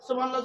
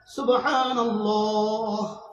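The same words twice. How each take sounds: First: It is said rushed, run into the next. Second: It is said slowly, then a stop for breath.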